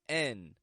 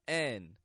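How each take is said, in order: First: The vowel is a short 'eh' sound. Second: The vowel is a short 'eh' sound.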